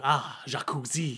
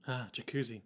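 First: Slow, drawn-out inner voice; lingering private thought; internal monologue. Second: Soft, low murmur; hushed, worried aside; deeply concerned. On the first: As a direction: think it aloud slowly, dreamily. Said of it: "in her internal monologue". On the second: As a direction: sigh it quietly with concern. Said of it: "looking deeply concerned". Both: Acted.

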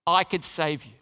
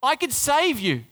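First: Ironic echo. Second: Pilate's boast. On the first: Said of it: "How ironic". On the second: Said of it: "what Pilate's saying". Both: Retold or imitated.

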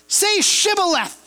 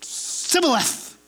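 First: "Shibboleth" with a clear SH at the start; guard demands "Shibboleth" properly, SH sound crisp; correct Shibboleth. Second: "Sibboleth" said softly with S in place of SH; a quiet, failed "Sibboleth" with a plain S; lisped password. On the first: Gileadite guard testing a stranger, says Shibboleth properly. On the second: Ephraimite at the ford failing the test, lisped and soft. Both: Retold or imitated. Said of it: "They had a little bit of a lisp".

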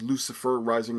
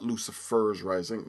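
First: "Lucifer Rising" said with no s on Lucifer; stressing the right "Lucifer Rising"; correct title. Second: "Lucifer's Rising" with an added s sound on Lucifer's; the wrong version "Lucifer's Rising", corrected; wrong title. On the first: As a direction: say it plainly as "Lucifer Rising", no possessive. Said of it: "not Lucifer's Rising". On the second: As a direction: say "Lucifer's Rising" as the mistaken possessive. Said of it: "By the way, that's Lucifer Rising". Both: Shown as a demonstration.

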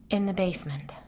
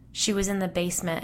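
First: Ghostly whisper. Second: Said in the usual way. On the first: Acted.

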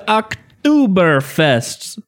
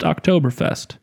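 First: "Oktoberfest" stretched out higher with an exaggerated "oo"; mock mispronunciation. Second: Said in the usual way. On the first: Shown as a demonstration. Host announcing today's beer, "Oktoberfest" comically mispronounced. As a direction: ham up "Oktoberfest" with a long, wrong middle vowel. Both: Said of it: "also pronounced Oktoberfest".

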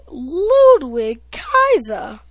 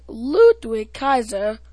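First: Put-on ring-announce Ludwig Kaiser, slow and grand, in a German accent; announcer's German accent. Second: Said in the usual way. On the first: Kid mimicking the ring announcer's German accent. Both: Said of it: "according to Samantha Irvin".

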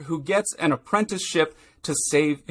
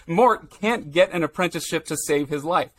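First: Said in the usual way. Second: Correcting a slip, a light lean on "can't get"; host fixing his own recap slip, corrects it with light stress on "can't"; corrected line. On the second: Real, not acted. Lean on "can't" to fix the slip. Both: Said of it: "or, sorry".

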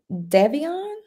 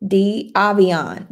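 First: "Devion" as a rising question, DEV first; unsure name reading. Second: "D Avion" slowly, dee-AH-vee-on, falling; corrected name reading. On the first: Host guesses a viewer's name, "Devion" with short e, questioning. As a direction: try "Devion" with a short e, pitch climbing. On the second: Host corrects a viewer's name, "D Avion" slow and deliberate. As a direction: sound out "D Avion" as a sure statement. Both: Real, not acted. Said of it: "I should know that".

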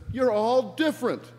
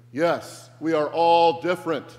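First: High, loud shout; Brian yelling to mob. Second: Very loud mock unison chant; crowd speaking together. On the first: Acted. Brian insists to the mob following him, yelling. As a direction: shout it high to a whole crowd. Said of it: "he yells to them". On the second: The mob replies to Brian all together, chanting loudly. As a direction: chant it back as an obedient mob. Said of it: "they all say together".

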